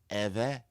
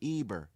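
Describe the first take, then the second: First: The middle consonant is a V sound. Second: The middle consonant is a B sound. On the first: "the people that speak Ever been telling us that this is how you say Eber" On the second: "this is how you say Eber?"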